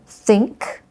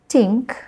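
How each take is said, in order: First: The word begins with a th sound. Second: The word begins with a t sound. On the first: The speaker calls it right. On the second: The speaker calls it wrong.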